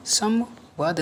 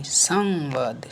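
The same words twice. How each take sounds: First: संवाद split slowly, sam... vaad; wrong form. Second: संवाद with long drawn nasal before vaad; corrected form. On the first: Teacher shows the error, संवाद slowly split at m. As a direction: pause after the m in संवाद. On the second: Teacher corrects students, drawn-out nasal in संवाद. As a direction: stretch the first syllable of संवाद slowly. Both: Shown as a demonstration. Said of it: "नहीं".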